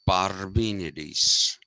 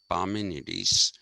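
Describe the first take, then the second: First: The R sound is clearly pronounced and stressed. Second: The R sound is dropped from the name. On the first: The speaker calls it right. "you have to emphasize the R" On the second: The speaker calls it wrong. "I have a tendency to not pronounce the R"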